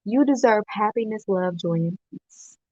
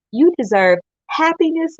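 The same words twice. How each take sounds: First: "You deserve happiness" settled back down, sincere; calmer sincere. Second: Higher, louder passionate push on "You deserve happiness". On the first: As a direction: say it gently after the outburst. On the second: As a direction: preach it to lift them up. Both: Acted. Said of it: "I was a little passionate there".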